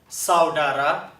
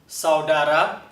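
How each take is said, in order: Both takes have the same delivery.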